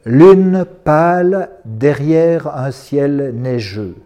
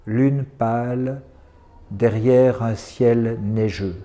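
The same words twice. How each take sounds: First: Very slow, projected poetry line; poem, first reading. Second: Very slow, low and subdued recital; poem, repeated softly. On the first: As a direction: recite it out to the room, drawing out each word. (première lecture du poème, lente et projetée) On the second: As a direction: let the line sink, softer, like an echo. (reprise du poème, lente, basse et douce) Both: Acted. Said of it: "je vais les dire deux fois".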